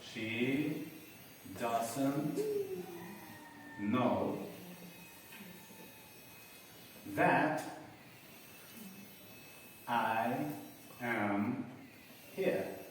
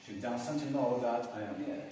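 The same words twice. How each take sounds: First: Dictation pace, long gaps between words; one word at a time, as if writing it. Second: Whole sentence joined up, moderately slow; connected read-back. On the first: Teacher writing it for those who missed it, word by word. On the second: Teacher reading back the written sentence, connected delivery. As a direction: read it through in one phrase. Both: Shown as a demonstration. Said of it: "lo voy a escribir".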